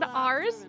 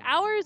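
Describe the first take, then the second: First: The word sounds like 'ars', rhyming with stars. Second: The word sounds like 'ow-ers', not rhyming with stars. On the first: The speaker calls it right. "you could have very easily said ours with stars" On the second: The speaker calls it wrong. "you do not pronounce hours to rhyme with stars"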